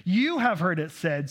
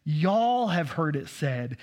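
First: Said in the usual way. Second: "Y'all" leaned on, slow and drawn out; slow Texas "Y'all have heard it said"; stress on y'all. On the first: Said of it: "best way to interpret that is". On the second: Shown as a demonstration. Pastor to congregation, slow stressed "Y'all". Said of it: "teaching y'all reading".

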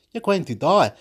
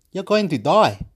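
Both takes have the same delivery.

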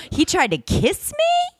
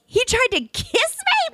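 First: Higher, slow, incredulous question; sassy disbelief. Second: Much higher, slow, shouted outrage; sassy shout. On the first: Telling her co-host he tried a kiss, sassy and higher. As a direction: drag it out like you can't believe his nerve. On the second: Repeating to her co-host that he tried a kiss, a sassy shout. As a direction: blow up at the nerve of it, full sass. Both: Acted. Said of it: "The sass meter is off the chart".

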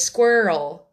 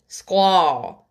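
First: Said in the usual way. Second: Squirrel as a drawn-out "skwaw", no R; Japanese cousin's mispronunciation. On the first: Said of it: "It says squirrel". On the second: Retold or imitated. Imitating a Japanese cousin, Squirrel as "skwaw". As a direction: drop the R in Squirrel and open it to "aw". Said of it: "So he'd say squirrel".

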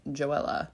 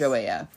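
First: Joella said jo-EL-a, with an L; first pronunciation attempt. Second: Joella said jo-AY-a, without the L; alternative pronunciation attempt. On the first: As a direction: pronounce the L in Joella, jo-EL-a. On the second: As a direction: turn the double L in Joella into a Y sound. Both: Shown as a demonstration. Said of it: "or some, however it's pronounced".

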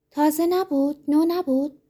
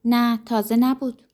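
First: تازه نبود pitched much higher, falling at the end; incredulous question. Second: Said in the usual way. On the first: Acted. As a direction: echo it back in disbelief. Disbelieving echo of the denial.

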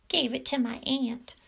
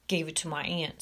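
First: Higher-pitched mocking echo; mocking mimicry. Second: Said in the usual way. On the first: A narrator's reading. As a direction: parrot him in a high, taunting voice. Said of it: "mimicked Major". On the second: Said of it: "said Alfred".

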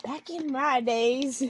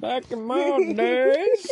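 First: Put-on old-timer drawl. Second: Put-on high, slow, drawn-out old-timer; old-timer drawl. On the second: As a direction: stretch "Back in my days" out slowly and high like a creaky old-timer.

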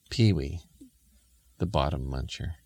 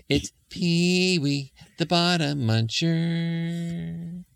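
First: Said in the usual way. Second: High, slow sung jingle with long held notes; sung refrain. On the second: Acted. Dad sings the imp's theme to listeners, slow high singing. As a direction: sing it out like a theme tune.

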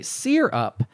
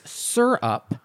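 First: "sear up" for syrup, SEER-up; variant syrup pronunciation. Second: "syrup" said as SUR-up; usual syrup pronunciation. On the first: Reading Eric's email on a rarer variant, "sear up" as SEER-up. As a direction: say "sear up" with a long ee in the first syllable. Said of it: "I have heard a few say". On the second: Reading Eric's email on how to say it, "syrup" as SUR-up. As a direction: say "syrup" slowly, first syllable rhyming with fur. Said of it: "I have heard a few say sear up". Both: Shown as a demonstration.

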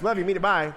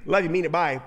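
First: Rushed catchphrase. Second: Quick throwaway sign-off; rattled-off love you; rushed catchphrase. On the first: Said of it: "kind of a catchphrase". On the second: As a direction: toss it off like hanging up the phone. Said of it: "it's kind of like". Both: Retold or imitated.

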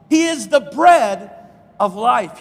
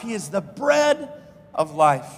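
First: Emphatic preaching. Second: Shouted pulpit declaration, falling at the end; shouted preaching. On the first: Preached climax. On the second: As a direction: shout "He is the bread", drop on "of life". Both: Acted.

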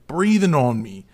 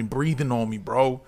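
First: "Breathing" hit louder with a falling tune; outraged emphasis on "Breathing"; stress on Breathing. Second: Said in the usual way. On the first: Retold or imitated. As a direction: lean hard into "Breathing" in disbelief. Repeats complaint, second time emphasized.

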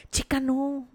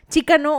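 First: Quiet disgusted no. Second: Chica punched, no stretched out; emphatic no. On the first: Gossip vlogger recoiling at royal sexting, quietly disgusted. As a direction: mutter it under your breath in disgust. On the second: Gossip vlogger rejecting the royal sexting, emphatically fed up. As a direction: say it like a firm, fed-up refusal. Disgusted by the couple's chat. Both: Real, not acted.

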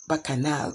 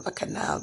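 First: Said in the usual way. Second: The word bacchanal breathed out without voice; whispered bacchanal. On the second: Retold or imitated. Humming bacchanal to herself during house chores, in a whisper. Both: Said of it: "and I would be".

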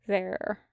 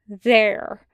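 First: Soft, spent single word; subdued. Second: Firm, punched single word. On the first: Wash sits drained in the dirt, subdued. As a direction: let it drop quietly, the fight gone. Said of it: "voice subdued". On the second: Wash flings down his jacket for Tucker, firm. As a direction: set it down hard and final. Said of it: "folding his arms firmly". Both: A narrator's reading.

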